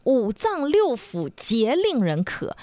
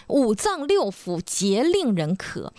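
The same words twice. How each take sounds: First: "五脏六腑皆令人咳" read slowly, stress on 六; slow quoted classic line. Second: "五脏六腑皆令人咳" again slowly, stress on 六, falling end; slow repeated classic line. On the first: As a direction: recite the classic slowly, lean on 六. (缓慢诵读"五脏六腑皆令人咳"，重读"六") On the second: (缓慢重复"五脏六腑皆令人咳"，重读"六") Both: Shown as a demonstration. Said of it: "黄帝内经里边有一句话说".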